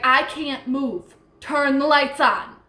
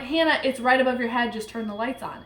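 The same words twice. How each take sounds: First: Retold frightened plea, rising louder and higher; urgent, drawn-out cry for help; terrified. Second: Quick, mildly annoyed retold instruction; brisk and unafraid, dropping away at the end. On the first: Paralyzed Hannah begging for the lights, terrified. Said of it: "was terrified". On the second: Telling frightened Hannah to switch on lights, annoyed. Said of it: "I'm annoyed".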